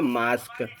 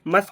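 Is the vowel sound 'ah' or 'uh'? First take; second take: ah; uh. First: The vowel is a long 'ah' sound. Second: The vowel is a short 'uh' sound. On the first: The speaker calls it right. "इसको बोलेंगे मास्क" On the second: The speaker calls it wrong. "मस्क नहीं बोलेंगे"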